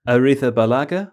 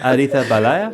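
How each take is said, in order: First: The G and other consonants are clearly sounded. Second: The final consonants are slurred and barely heard. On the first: The speaker calls it right. "that's better" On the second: The speaker calls it wrong. "Just gave up on consonants towards the end of that"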